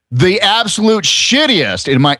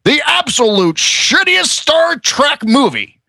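First: Said in the usual way. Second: Much higher, slow put-on croak; high slow comedian sneer; Neil Hamburger voice. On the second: Shown as a demonstration. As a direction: drag out the sour comic line. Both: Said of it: "in my Neil Hamburger voice".

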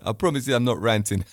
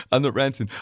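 First: Said in the usual way. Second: Laughing through the denial. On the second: Real, not acted. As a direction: say it again while chuckling. Repeats denial while laughing.

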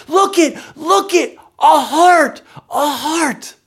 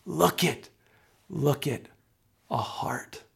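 First: Put-on high, loud cry of childlike wonder; wide-eyed yell. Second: Soft, hushed, reverent; simply said. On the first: Daughter showing the store a candy heart, excited yell. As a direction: yell it like an amazed little kid. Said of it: "she looks at me in wide-eyed wonder, and she says". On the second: Acted. Pastor in prayer, others noticing a heart, hushed. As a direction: let it fall gently away to nearly a whisper. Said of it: "would just simply say".

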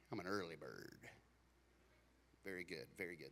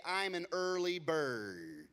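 First: Much lower, much softer mock answer; mumbled early bird reply. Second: Said in the usual way. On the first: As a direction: mumble it back like a half-awake crowd. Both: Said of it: "How many of you would say".

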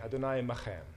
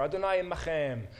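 First: Said in the usual way. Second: Adonai imachem with a rasped ch, Hebrew vowels; Hebrew greeting. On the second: Shown as a demonstration. Preacher quoting Boaz's Hebrew greeting, careful pronunciation. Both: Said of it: "Great greeting".

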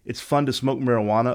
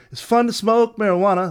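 First: Said in the usual way. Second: High, loud eerie sing-song; imitating the hidden backwards message. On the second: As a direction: mimic the garbled reversed vocal, pitched up. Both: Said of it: "like that".

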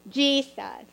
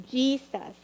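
Both takes have the same delivery.

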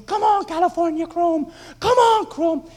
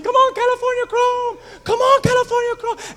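First: High, loud cheering for the horse; screaming at the TV. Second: Much higher, louder desperate cheer; screaming at the TV. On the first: Fan at home screaming at the TV for his horse, high loud cheering. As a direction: yell him home, urgent. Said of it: "and I'm screaming". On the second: Fan at home screaming at the TV for his horse, frantic loud cheering. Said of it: "And I'm screaming". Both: Retold or imitated.

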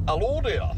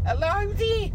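First: Failed first try at a Brummy hello; off-target Brummy greeting, falling away; botched Brummy accent. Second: High, louder character greeting in Brummy; corrected impression, pitched high and held up; Patrick. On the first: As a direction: test the Brummy voice and miss. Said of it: "No, that's not right". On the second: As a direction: sing out the hello in a put-on Brummy voice. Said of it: "sounds a bit more like old Patrick". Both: Shown as a demonstration.

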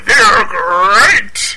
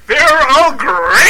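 First: Booming mascot catchphrase; Tony the Tiger voice. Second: Slow, stretched booming catchphrase; Tony the Tiger voice. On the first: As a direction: belt it like a cereal mascot. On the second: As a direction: drag it out like a tiger mascot. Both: Retold or imitated.

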